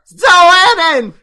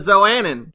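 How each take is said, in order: First: The word is said loudly and forcefully. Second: The word is said at a normal, softer volume.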